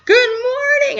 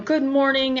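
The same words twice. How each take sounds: First: It is said in an excited way. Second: It is said in a grumpy way.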